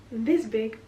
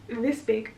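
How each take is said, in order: Both takes have the same delivery.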